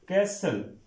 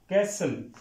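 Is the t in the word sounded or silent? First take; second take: silent; silent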